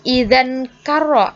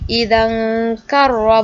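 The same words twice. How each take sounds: First: The n sound is pronounced clearly. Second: The n sound is hidden and nasalized. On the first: The speaker calls it wrong. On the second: The speaker calls it right. "Dibaca samar"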